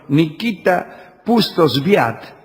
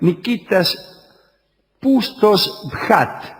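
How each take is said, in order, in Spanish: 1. El nombre se dice sin un sonido 'kh' gutural. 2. El nombre se dice con un sonido 'kh' gutural.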